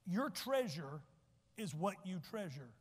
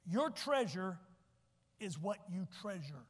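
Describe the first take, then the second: First: Slow repeat with long pause; deliberate teaching repeat; said slowly again. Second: Slow, deliberate, spaced out; a measured slow teaching delivery; said slowly. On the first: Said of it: "so I'll say it twice". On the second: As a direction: lay it out slowly for the slow learners. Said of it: "I'll say it slow for you homeschoolers". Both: Shown as a demonstration.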